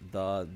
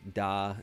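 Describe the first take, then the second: First: The word starts with a TH sound. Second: The word starts with a D sound. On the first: "I made his th sounds like that" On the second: "the into uh, dat, da"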